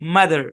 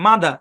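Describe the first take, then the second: First: The final r sound is clearly pronounced. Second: The final r sound is dropped. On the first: "আমেরিকানরা বলে মাদার" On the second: "ব্রিটিশরা এই শব্দের উচ্চারণ করে"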